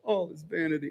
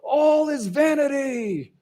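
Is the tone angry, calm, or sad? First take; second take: sad; angry. First: It is said sadly and dejectedly. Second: It is said loudly and angrily. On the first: The speaker is grieving over life's emptiness. "or is he real sad" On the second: The speaker is furious about life's emptiness. "Is he real loud and angry"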